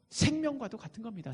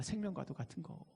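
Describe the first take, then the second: First: Said in the usual way. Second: Softly repeated, dropping away; quiet echo. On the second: Real, not acted. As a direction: say it again under the breath. Repeats phrase, second softer. (조용히 되뇌듯)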